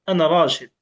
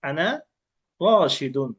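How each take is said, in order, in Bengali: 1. শেষ শব্দটি -un ছাড়াই থেমে যায়। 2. শেষ শব্দে একটি অতিরিক্ত -un ধ্বনি যোগ হয়। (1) "শেষে গিয়ে সে অক্ষ করলো" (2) "শেষে গিয়ে সে কি করে দুই পেশ দিয়ে দেয়"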